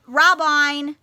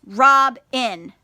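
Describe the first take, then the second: First: Robine with a long I in the second syllable; wrong reading. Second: Robin with a short i, rob-in; correct reading. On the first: Teacher shows children how not to read it, wrong reading. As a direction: misread it as Robine, stretched and loud. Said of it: "We're not gonna say". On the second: Teacher shows children the right reading, correct short-vowel Robin. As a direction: read Robin correctly, both syllables clear and loud. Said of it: "It's Robin". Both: Shown as a demonstration.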